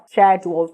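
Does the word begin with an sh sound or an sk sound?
sh. It begins with an sh sound. "um somzinho bem de ché mesmo"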